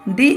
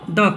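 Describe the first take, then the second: First: The word ends in a long 'ee' vowel. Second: The word ends in a short 'uh' vowel. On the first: "दी कहेंगे" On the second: "यहाँ पे हम पढ़ेंगे द cat"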